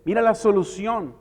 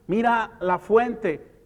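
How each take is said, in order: First: Said in the usual way. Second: Slow emphasis. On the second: Shown as a demonstration.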